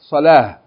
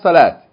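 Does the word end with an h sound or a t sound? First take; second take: h sound; t sound. First: The word ends with an h sound. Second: The word ends with a t sound. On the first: The speaker calls it right. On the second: The speaker calls it wrong. "It's not salat"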